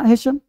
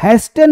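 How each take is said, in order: First: The t sound is silent. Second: The t sound is pronounced. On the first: The speaker calls it right. "टी प्रायः silent होता है" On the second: The speaker calls it wrong. "हैस्टेन नहीं"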